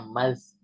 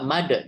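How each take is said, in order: First: The consonant after 'ma' is a soft z-like sound. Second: The consonant after 'ma' is a hard d sound. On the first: The speaker calls it right. "berarti dia soft kan, maka bacanya mas" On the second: The speaker calls it wrong. "nggak nggak made gitu"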